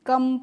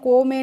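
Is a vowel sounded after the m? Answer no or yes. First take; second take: no; yes. First: Nothing is sounded after the m. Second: A vowel is sounded after the m. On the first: The speaker calls it right. "हमें ई का pronunciation यानी कि उच्चारण नहीं करना है" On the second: The speaker calls it wrong. "नहीं"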